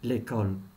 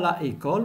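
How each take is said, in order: First: The article's vowel is dropped before the noun. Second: The article's vowel is kept before the noun. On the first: The speaker calls it right. "mais on dit l'école" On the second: The speaker calls it wrong. "on ne dit pas la école"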